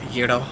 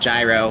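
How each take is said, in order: First: It is said with the original-language pronunciation. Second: It is said with an English-style pronunciation. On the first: "you pronounce them from the language" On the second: "that is the correct English pronunciation"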